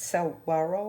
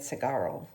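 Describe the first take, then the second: First: The 'g' is followed by a 'w' sound. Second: The 'g' is followed directly by an 'ah' sound. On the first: The speaker calls it right. "but it's Saguaro, I think" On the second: The speaker calls it wrong. "I was pronounce, pronouncing it Sagaro"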